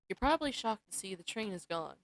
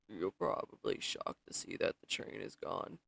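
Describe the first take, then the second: First: It is said in the speaker's natural voice. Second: It is said in a put-on bartender's voice.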